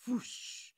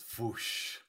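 First: Soft unvoiced fizzle noise; echoed foosh. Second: Soft breathy burning-out noise; unvoiced foosh. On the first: Echoing the friend's burnout noise, a soft fizzle. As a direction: breathe out a little foosh. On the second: Describing the computer burning up, a soft fizzle noise. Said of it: "he goes".

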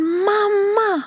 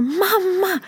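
First: Put-on very high, excited little girl's call; child calling mamma. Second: Put-on very high, glad little girl's call; child calling mamma. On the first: Mother imitating her daughter calling for her, high child voice. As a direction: cry out mamma like a happy five-year-old. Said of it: "säger hon". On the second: Mother imitating her daughter greeting her, high child voice. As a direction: call mamma the way a thrilled five-year-old would. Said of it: "säger hon så här".

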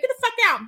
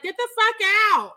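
First: Higher mock yell at the leaving heckler; crowd yelling. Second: Higher, louder mock yell into a mic; Bruce Campbell yelling. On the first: Imitating the crowd booing the heckler out, in a higher mock yell. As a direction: shout him out of the theater, half laughing. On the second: Imitating Bruce Campbell shouting at the heckler, higher and louder. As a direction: boom it out like a star on stage. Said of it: "is like".

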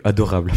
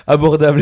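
First: "adorable" read by mistake in place of "abordable"; "adorable" said plainly, as an honest misreading. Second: "Abordable" said carefully with the b, laughing; amused correction to "Abordable"; corrected word. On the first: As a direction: stumble on "adorable", as a slip while reading. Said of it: "Abordable et accessible". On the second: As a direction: fix the slip with "Abordable", a little louder. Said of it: "Ah, j'ai cru adorable". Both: Real, not acted.

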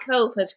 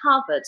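First: Said in the usual way. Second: "covid" with an open "ah" in the first syllable, like "cahvid"; friend's Belfast pronunciation. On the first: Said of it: "He pronounces covid covid". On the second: Retold or imitated. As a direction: say "covid" as "CAH-vid", Belfast style. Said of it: "he pronounces covid".

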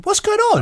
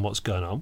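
First: Very high, excited question; squeaky-high excitable presenter take; high intonation. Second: Said in the usual way. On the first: Acted. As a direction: pitch it right up in amazement. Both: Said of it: "but a high intonation".

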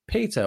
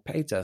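First: "Peter" said the usual English way, PEE-ter; first pronunciation attempt. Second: "Peter" said as PAY-ter; alternative pronunciation attempt. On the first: Host unsure of a listener's surname, "Peter" as PEE-ter. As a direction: say "Peter" with a long ee. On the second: Host unsure of a listener's surname, "Peter" as PAY-ter. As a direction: say "Peter" with an ay in the first syllable. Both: Shown as a demonstration. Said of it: "can't remember how to pronounce".

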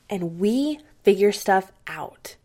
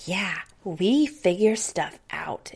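First: Said in the usual way. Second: Put-on slow, whispered little-girl echo; imitating little daughter. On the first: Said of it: "And I said". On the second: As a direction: whisper it back like a small child copying mom. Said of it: "she's just sitting there going".

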